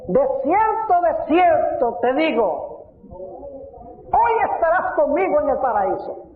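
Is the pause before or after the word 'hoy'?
before. The pause comes before the word hoy.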